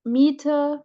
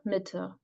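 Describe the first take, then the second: First: "Miete" with a long, held ee; long vowel. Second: "Mitte" with a short, lax i; short vowel. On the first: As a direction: draw out the first vowel of "Miete". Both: Shown as a demonstration. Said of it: "difference between a long and a short vowel".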